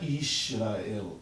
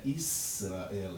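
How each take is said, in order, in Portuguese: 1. O som do meio é pronunciado como 'sh'. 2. O som do meio é pronunciado como 's'. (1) "esse Shin não é Israel" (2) "é Israel"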